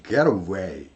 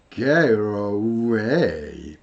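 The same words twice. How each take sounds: First: "Get away" said quickly as one flowing word; fast linked. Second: "Get away" stretched very slowly, get stressed; slow linked demo. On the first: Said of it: "빠르게 하면 get away 이렇게 되겠죠". (빠르게 이어서) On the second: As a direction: linger over "Get away". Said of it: "빠르게 하면 get away". (아주 느리게 이어서) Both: Shown as a demonstration.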